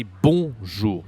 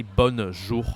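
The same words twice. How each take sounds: First: "bonjour" with nasal on, no n, louder; correct nasal on. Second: "bonjour" with a hard n after bo; mispronounced bonjour. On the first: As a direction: model "bonjour" firmly with a pure nasal vowel. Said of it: "we are supposed to say bonjour". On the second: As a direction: say "bonjour" wrongly as "bonn-zhour", no nasal vowel. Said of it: "So we don't say bonjour". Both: Shown as a demonstration.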